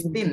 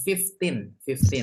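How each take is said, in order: First: Put-on fifteen said as "faif-teen" with a long i; wrong pronunciation. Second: Fifteen with a short "fif", clearly modelled; correct pronunciation. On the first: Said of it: "bukan fifteen". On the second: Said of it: "fifteen ya, bukan fifteen". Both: Shown as a demonstration.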